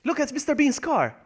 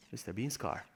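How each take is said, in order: First: High, delighted pointing-out; high-pitched excited exclamation; excited discovery. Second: Low, soft aside to yourself; subdued, lower echo; quiet repeat. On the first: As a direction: call out a surprise find. Excited spotting of a car. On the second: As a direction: drop it down to a murmur. Quiet repeat after the excitement. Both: Real, not acted.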